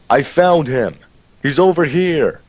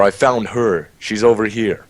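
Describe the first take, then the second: First: Acted yell. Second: Higher, lightly called out; a toned-down call to the others; milder mock yell. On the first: Player yelling at the cave exit to lure the guys, acted yell. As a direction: call out to the others as if from a distance. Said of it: "not scream, but yell". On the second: Player correcting the bait call for the guys, milder mock yell. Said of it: "but yell".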